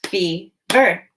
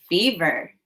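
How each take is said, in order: First: Fever split into Fe, pause, ver; two chunks. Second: Said in the usual way. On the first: Shown as a demonstration. Teacher demonstrates the two chunks, Fever as Fe... ver. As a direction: chop Fever into two separate syllables. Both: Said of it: "Now say the two chunks".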